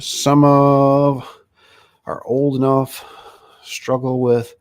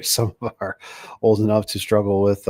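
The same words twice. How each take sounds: First: Squinting at the screen, stopping word by word; louder, slow, struggling to decipher the chat; halting read. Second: Said in the usual way. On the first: Real, not acted. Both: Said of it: "what does it say here?".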